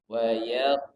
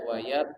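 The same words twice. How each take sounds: First: The final q sound has an echoing bounce. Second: The final q sound is plain, without a bounce. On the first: The speaker calls it right. "tapi wayat" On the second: The speaker calls it wrong. "tidak wayat"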